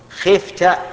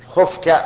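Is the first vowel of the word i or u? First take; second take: i; u. First: The first vowel is i. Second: The first vowel is u. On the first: The speaker calls it wrong. "على وجه الكسر" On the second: The speaker calls it right. "نقول بالضم خفت"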